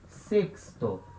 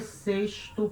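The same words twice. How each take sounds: First: The x is sounded as ks. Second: The x is not sounded as ks. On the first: The speaker calls it right. "Se lê sexto, tá? X sempre o som de K S" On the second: The speaker calls it wrong. "não se lê sexto como é em português"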